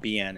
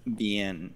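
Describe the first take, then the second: First: The word begins with a B sound. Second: The word begins with a V sound. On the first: The speaker calls it wrong. "It's not bien" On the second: The speaker calls it right. "With a V"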